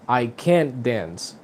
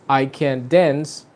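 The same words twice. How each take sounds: First: Slow, "can't" stressed, softer overall. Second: Slow, "dance" stressed and falling. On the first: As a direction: hit "can't" and let "dance" fall away. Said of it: "pero en el modal verb". (énfasis en "can't", lento y suave) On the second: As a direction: land the weight on "dance". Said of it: "the stress sound". (énfasis en "dance", lento) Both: Shown as a demonstration.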